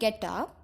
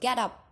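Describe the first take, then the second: First: It is said softly, like a gentle request. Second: It is said firmly, like an order. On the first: The listener is being gently encouraged to act. "that is like a suggestion" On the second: The listener is being ordered to act. "that is a command or an order"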